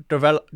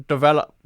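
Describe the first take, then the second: Both takes have the same delivery.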